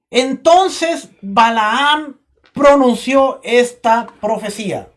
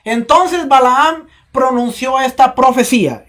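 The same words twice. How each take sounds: First: Slow, drawn-out reading; slow first read. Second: Said in the usual way. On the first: Shown as a demonstration. Preacher reading slowly to the church, drawn out. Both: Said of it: "Si se lo cambio mejor".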